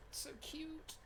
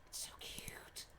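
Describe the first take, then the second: First: High unvoiced gushing whisper of "It's so cute". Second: Softer unvoiced whisper of "It's so cute". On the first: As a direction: breathe it softly in awe. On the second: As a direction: whisper it again, lower and hushed. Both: Real, not acted. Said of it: "look at the heart".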